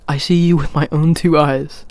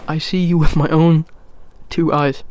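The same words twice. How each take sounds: First: Said in the usual way. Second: Talking with hair in mouth. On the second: Real, not acted. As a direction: speak around a hair on the lips. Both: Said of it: "there's hair in my mouth".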